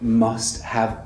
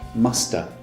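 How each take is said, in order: First: The word have is said in full. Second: The word have is reduced to a schwa.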